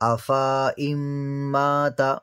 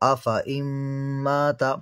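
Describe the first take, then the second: First: The vowel after the f is drawn out long. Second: The vowel after the f is said short. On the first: The speaker calls it wrong. "यहाँ पर आपने फ़ा को अलिफ के साथ पढ़ा है" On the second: The speaker calls it right. "फ़ा को खींचकर नहीं पढ़ेंगे, बल्कि जल्दी पढ़ेंगे"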